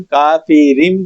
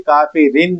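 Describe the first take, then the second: First: کافرین with a final m, kafirim; correct iqlab. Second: کافرین with a clear n, kafirin; wrong reading, nun kept. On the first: Teacher giving the right reading. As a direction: close کافرین on m. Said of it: "اس کو بھی ہم کافرین پڑھیں گے". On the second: Teacher showing what not to say. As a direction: end کافرین on n. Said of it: "کافرین نہیں پڑھیں گے". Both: Shown as a demonstration.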